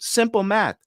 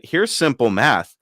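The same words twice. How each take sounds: First: "Simple math" pitched high and condescending, like a smug dealer; mocking salesman. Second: "Here's simple math" slow, louder and deliberate; firm comeback. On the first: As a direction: say "Simple math" in a high, patronising sing-song. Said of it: "and he goes". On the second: Retold or imitated. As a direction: hand it back word by word, louder and slower. Firing the salesman's phrase back.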